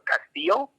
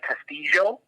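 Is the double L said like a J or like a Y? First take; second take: Y; J. First: The double L sounds like an English Y. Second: The double L sounds like an English J. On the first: This is the way the speaker learned it. "in the way I learned it, that would be correct" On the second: This is how people in Colombia might say it. "in Colombia, you know, I think they might say, like, Castillo. Like, two L's would make a jo"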